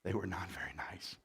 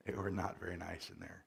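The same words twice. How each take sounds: First: Whispered aside; hushed confiding aside. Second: Said in the usual way. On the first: Real, not acted. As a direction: breathe it out voiceless.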